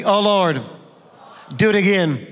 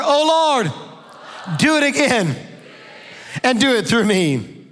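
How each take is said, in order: First: Said in the usual way. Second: High, loud "Oh Lord, do it again"; louder congregational call. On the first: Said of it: "Say it with me". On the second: Shown as a demonstration. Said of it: "Come on, louder".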